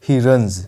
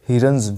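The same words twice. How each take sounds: The two takes are said the same way.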